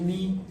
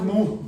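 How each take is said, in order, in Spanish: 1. La vocal es una i con los labios redondeados. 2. La vocal es una u simple, posterior. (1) "es mi" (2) "no es mu"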